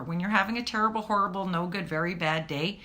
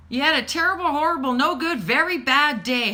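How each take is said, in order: First: Said in the usual way. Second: Put-on commiserate big with the child; sympathetic mom. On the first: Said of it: "just remember". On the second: Mom commiserating with her kid over a bad day, louder. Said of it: "I would tell my kids".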